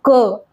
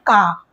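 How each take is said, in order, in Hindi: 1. स्वर छोटा है, मुँह खोले बिना। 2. स्वर लंबा है, मुँह खुला रहता है। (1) "ये है क। हमें मुँह खोलकर नहीं बोलना है" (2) "वो इसको पढ़ते हैं का, जबकि ये का नहीं है"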